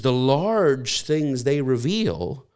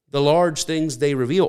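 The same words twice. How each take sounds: First: Drawn out slowly, each word weighed; slow emphasis. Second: Said in the usual way. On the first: Shown as a demonstration. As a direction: linger on the phrase to let it sink in. Preacher repeats phrase for weight.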